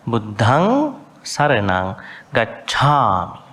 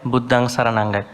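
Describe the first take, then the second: First: Buddhang Saranang Gacchami slowly, with a breathy push on the dh and chh; "Gacchami" with a strong puff on the chh; emphasised aspirates. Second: Said in the usual way. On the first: Shown as a demonstration. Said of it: "pronounce with a sibilant, kind of an emphasis". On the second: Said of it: "Not like".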